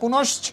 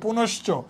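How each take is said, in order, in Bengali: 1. শব্দটি খালি ch ব্যঞ্জনে শেষ হয়। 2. শব্দটি o স্বরধ্বনিতে শেষ হয়। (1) "এটা বলি না" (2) "এই জন্য এখানে চ ওকার"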